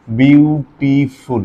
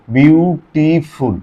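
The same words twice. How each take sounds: First: beautiful drawn out very slowly, syllable by syllable; syllable demo. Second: beautiful pulled apart slowly into syllables; syllable demo. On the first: Teacher shows students the syllables of beautiful, slow. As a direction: stretch beautiful into its separate syllables. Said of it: "এটা কি এক সিলেবালে হয়েছে". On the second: Teacher proves beautiful has several syllables, slow. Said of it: "একবারে উচ্চারণ হয়েছে? না". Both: Shown as a demonstration.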